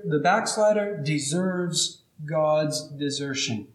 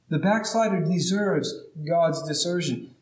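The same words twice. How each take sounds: First: "backslider deserves God's desertion" drawn out slowly, each word weighed; slow it right down and lean on every word; a grave, deliberate first statement; slow emphatic. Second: Said in the usual way. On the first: Shown as a demonstration.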